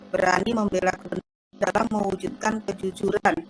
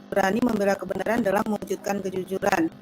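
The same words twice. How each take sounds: No difference in how they are said.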